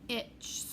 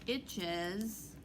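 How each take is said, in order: First: The ending has no extra syllable. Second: The ending adds an extra uz syllable. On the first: The speaker calls it wrong. "that's not easy to say. Does that sound right? No" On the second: The speaker calls it right. "You want that uz sound"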